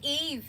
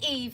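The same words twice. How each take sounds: First: It is said in an imitated character voice. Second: It is said in the speaker's normal voice.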